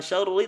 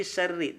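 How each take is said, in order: First: SYARRI with dark RR, like syaru; wrongly thick R. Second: Soft SYARRI with light trilled RR; thin R. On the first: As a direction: weigh down the R in SYARRI. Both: Shown as a demonstration. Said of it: "dibaca tipis".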